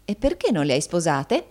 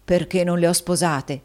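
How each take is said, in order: First: Teasing question with a lilting rise; madam playfully quizzing her husband. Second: Husband echoing his wife; echoed question. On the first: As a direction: ask it in light jest. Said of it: "domandò Madama scherzosamente". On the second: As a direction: question thrown back with a falling end. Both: A narrator's reading.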